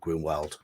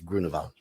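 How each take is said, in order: First: The name is said with an American pronunciation. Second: The name is said with a German pronunciation. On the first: The character is taken to be American. "if he's American, it'd be Grunwald" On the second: The character is taken to be German. "it looks German to me"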